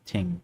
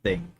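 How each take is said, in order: First: The word begins with a plain t sound. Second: The word begins with a th sound. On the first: The speaker calls it wrong. "It's not ting" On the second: The speaker calls it right. "it's thing"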